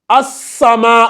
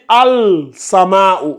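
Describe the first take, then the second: First: The article's l merges into a doubled s. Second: The article's l is clearly said before s. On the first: The speaker calls it right. "on va lire as-sama" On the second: The speaker calls it wrong. "on ne va pas dire al-sama"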